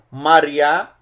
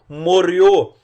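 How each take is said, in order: First: It is said in the Eastern Aramaic pronunciation. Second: It is said in the Western Aramaic pronunciation. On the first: "pronúncia aramaica oriental" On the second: "pronúncia aramaica ocidental"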